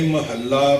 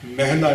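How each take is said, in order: First: ਮਹੱਲਾ as ma-hal-la with doubled l; three clear syllables in ਮਹੱਲਾ; correct pronunciation. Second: ਮਹਿਲਾ as two-syllable meh-la; short open "meh" in ਮਹਿਲਾ; wrong pronunciation. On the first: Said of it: "ਮਹਿਲਾ ਨਹੀਂ ਕਹਿਣਾ". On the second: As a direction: misread it as ਮਹਿਲਾ, single l. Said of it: "ਨਹੀਂ ਕਹਿਣਾ". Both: Shown as a demonstration.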